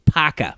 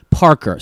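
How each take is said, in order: First: Parker with both R's dropped, Boston style; slow Boston "Parker", no R sounds. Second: Parker with both R's pronounced; careful "Parker", hard R in each syllable; both R's sounded. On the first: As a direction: say Parker as "Pahka", slowly. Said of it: "there's an R in the middle". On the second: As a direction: say Parker in General American, R in middle and end. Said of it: "R in the middle and R at the end". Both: Shown as a demonstration.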